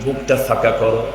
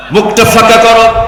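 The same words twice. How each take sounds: First: Said in the usual way. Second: High, loud repeat of the order; loud proclaimed command. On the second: Retold or imitated. Caliph telling Ali to open his mouth, loud proclaimed command. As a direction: throw the order out high and forceful.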